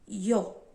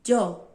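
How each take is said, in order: First: It begins with a sound close to ee. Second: It begins with a sound close to d. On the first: "tem o som de I também" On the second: "O mais conhecido é o de D"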